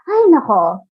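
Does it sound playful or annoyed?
playful. It sounds like a playful, light sigh.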